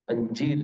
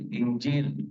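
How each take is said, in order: First: The word begins with an 'a' vowel. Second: The word begins with an 'i' vowel.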